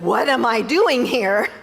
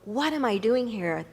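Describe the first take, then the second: First: It is said in a frustrated tone. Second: It is said in a calm, reflective tone.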